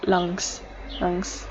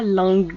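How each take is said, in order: First: "lungs" with the G barely there; "lungs", G hidden at the back of the voice; smooth soft G. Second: "lungs" with a heavy, hard G; "lungs" drawn out with the G sounded hard; over-pressed G. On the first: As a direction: say "lungs" lightly, gliding over the G. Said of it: "On fait semblant qu'on dit même pas le G". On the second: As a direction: wrongly lean on the G in "lungs". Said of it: "on dit pas lungs". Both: Shown as a demonstration.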